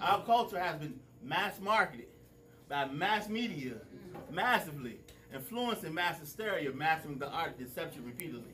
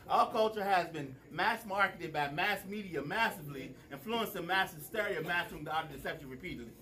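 First: It is said slowly. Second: It is said fast.

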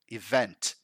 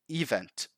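First: The stress falls on the second syllable. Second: The stress falls on the first syllable. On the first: The speaker calls it right. "the emphasis is actually in the second syllable" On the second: The speaker calls it wrong. "People put emphasis in the wrong syllable. In this case, the first"

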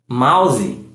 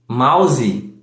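No difference in how they are said.

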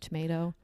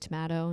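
First: It is said with an American pronunciation. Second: It is said with a British pronunciation. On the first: This is the school way of saying it. "instead of tomato" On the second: This is the home way of saying it. "I still say tomato"

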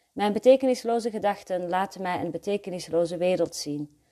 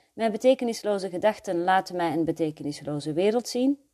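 The two takes are said the same way.

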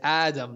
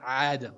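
First: It begins with a light glottal stop. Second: It begins with a throaty ayn sound. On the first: The speaker calls it right. "there is no Ayn in your name. It's Alif. It's Hamza" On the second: The speaker calls it wrong.

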